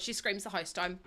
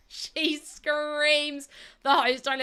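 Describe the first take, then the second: First: Said in the usual way. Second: Each word of "She screams the house down" drawn out and leaned on; slow emphatic repeat. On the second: Retold or imitated. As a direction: stretch out "She screams the house down" slowly and louder.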